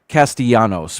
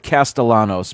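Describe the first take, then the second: First: The double L is said as a Y sound. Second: The double L is said as an L sound. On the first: "with the double L pronounced like a Y" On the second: "They pronounce it Castellanos"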